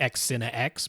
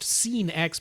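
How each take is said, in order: First: The name begins with an 'ex' sound. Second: The name begins with an 's' sound. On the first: This is how the spelling looks. The speaker calls it wrong. "I would have called it X Cine X because it looks like X Cine X" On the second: This is how the company says it. The speaker calls it right. "they say they are pronounced Scene X"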